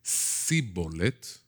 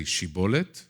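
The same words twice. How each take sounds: First: Sibolet starting with a plain s instead of sh; s sound. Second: Shibolet starting with a clear sh; sh sound. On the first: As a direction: open sibolet with a hissed s, as in sin. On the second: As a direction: open shibolet with sh, as in shin. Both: Shown as a demonstration. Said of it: "instead of shin, sin".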